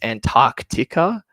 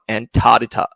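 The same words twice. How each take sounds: First: The k sound before the t is pronounced. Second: The k sound before the t is dropped. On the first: The speaker calls it right. "rule number one for the rest of the uh, live stream is it's Antarctica" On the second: The speaker calls it wrong. "not Antarctica ... so many people that leave that C out in the middle"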